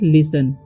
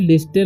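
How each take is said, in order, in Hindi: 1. बीच में t की ध्वनि सुनाई नहीं देती। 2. बीच में t की ध्वनि सुनाई देती है। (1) "इसे पढ़ना है लिसन" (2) "इसे लिस्टन नहीं पढ़ना है"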